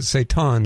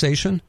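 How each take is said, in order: First: Seitan said as say-TAHN; usual own pronunciation. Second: Seitan said as SAY-shun; guest's pronunciation. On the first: Host tells guest his usual way, seitan as say-TAHN. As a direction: give seitan a clear T, say-TAHN. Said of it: "I've always pronounced it". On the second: Host checks guest's version, seitan as SAY-shun. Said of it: "so it's pronounced". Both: Shown as a demonstration.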